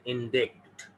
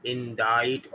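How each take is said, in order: First: Indict said in-DIKT with a clear k; slow, wrong indict as in-DIKT. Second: Indict said in-DITE, ending on a rise; correct indict. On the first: Teacher warns students: not in-DIKT. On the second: Teacher corrects students to in-DITE. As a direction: indict pronounced in-DITE, c silent. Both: Shown as a demonstration. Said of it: "It is not indict".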